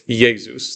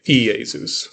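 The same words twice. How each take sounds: First: "Jesus" said yeh-zoos, slowly; Greek pronunciation of Jesus. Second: "Iesus" said ee-eh-soos, slowly; bookish pronunciation of Iesus. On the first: Teacher showing how people really say Jesus, slow. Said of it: "if you listen to people say Jesus". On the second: Teacher showing the bookish Iesus nobody uses, slow. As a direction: give "Iesus" the letter-of-the-law reading. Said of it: "They won't say Iesus". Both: Shown as a demonstration.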